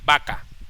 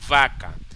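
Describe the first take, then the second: First: The first sound is made with both lips. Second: The first sound uses the lower lip and teeth. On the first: "Y si la pronunciamos con B alta" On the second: "Si lo pronunciamos con V pequeña"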